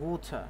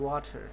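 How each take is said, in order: First: It is said in a British accent. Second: It is said in an American accent. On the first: "British অ্যাকসেন্টে বলে" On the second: "American অ্যাকসেন্টে বলে"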